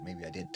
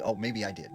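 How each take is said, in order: First: Softer, trailing reassurance of "maybe I did"; soft comforting. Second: Said in the usual way. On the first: Retold or imitated. Mom soothes her scared son, softly and reassuringly. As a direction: ease him down gently, letting it fade. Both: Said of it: "to, like, comfort him".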